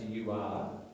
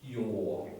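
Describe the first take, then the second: First: Two full words, you and are. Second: One short contracted syllable, you're. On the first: The speaker calls it wrong. "you don't have to expand it to you are" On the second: The speaker calls it right. "They're more natural and faster"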